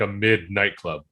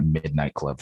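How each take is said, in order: First: "midnight club" broken up, "mid" set apart from "night club"; copying a friend's odd split of "midnight club"; imitating odd phrasing. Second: "Midnight Club" with "Mid" set slightly apart from "night"; odd split of Midnight. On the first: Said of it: "it sounded like you called it". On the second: Real, not acted. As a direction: say "Midnight Club" as if "Mid" were its own word. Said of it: "why'd you say it like that".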